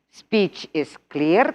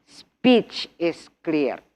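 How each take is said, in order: First: "Speech is clear" said slowly, rising on "clear"; slow teacher model, lifting "clear"; slow modelled phrase. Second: "Speech is clear" slow, leaning on "is"; slow, with weight on "is"; slow teacher repeat, "is" stressed. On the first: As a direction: read it out slowly for the class. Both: Shown as a demonstration.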